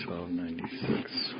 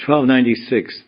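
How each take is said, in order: First: Whisper. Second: Said in the usual way. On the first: Real, not acted. Whispered verse number.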